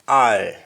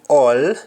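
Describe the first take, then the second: First: It is said in a Jamaican accent. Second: It is said in a standard English accent. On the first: "we shall we say all" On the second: "Instead of saying all"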